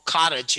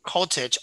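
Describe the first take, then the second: First: "cottage" American-style, open AH vowel; American "cottage", first vowel like AH; American accent. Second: "Cottage" with a rounded O and clear T; standard pronunciation. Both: Shown as a demonstration. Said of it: "or cottage in American English".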